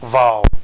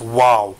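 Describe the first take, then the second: First: It begins with a v sound. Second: It begins with a w sound. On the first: The speaker calls it wrong. "they say vow. Vow. That's wrong" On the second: The speaker calls it right. "It's wow"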